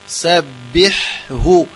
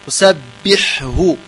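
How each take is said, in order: No difference in how they are said.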